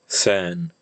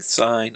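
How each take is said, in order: First: The vowel is a single pure e sound. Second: The vowel glides as in modern English. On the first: This is the pronunciation after the sound change. "started saying sen" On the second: This is the original pronunciation. "if people stopped saying sign"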